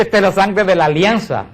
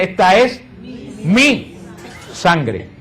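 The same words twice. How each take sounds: First: Said in the usual way. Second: "mi" set apart by pauses and raised in pitch; stress on mi. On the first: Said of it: "no dice". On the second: Shown as a demonstration. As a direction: lean on "mi", pause before and after it. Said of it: "Dice, "Esta es mi sangre". (énfasis en "mi", aislado entre pausas y más agudo)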